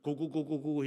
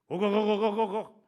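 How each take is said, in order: First: The call sounds calm and inviting. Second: The call sounds changed and alarmed. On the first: There is food to come and eat. "모이가 있으면 고고고고고 이렇게 불러가지고" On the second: Danger is near, so hide quickly. "갑자기 이 어미 닭의 이 목소리가 달라져"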